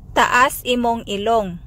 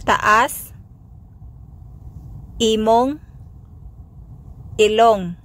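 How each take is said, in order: First: Said in the usual way. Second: Taas, imong, ilong each alone with a pause; word by word. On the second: Shown as a demonstration. Teacher breaking the phrase down for learners, word by word. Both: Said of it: "Sample phrases".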